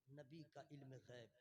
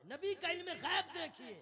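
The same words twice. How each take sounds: First: Low, soft "नबी का इल्म गैब"; hushed aside. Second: High, loud "नबी का इल्म गैब देखिए"; rousing exclamation. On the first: Preacher introducing the Prophet's knowledge, quietly. Quiet take before loud repeat. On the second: Preacher pointing crowd to the Prophet's knowledge, exclaiming. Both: Real, not acted.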